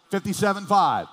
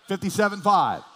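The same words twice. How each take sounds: The two takes are said the same way.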